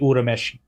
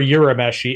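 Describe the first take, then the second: First: The name is said with a Japanese pronunciation. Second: The name is said with an American accent. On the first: "It's technically Urameshi" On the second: "but I prefer Urameshi. It rolls off the American tongue better"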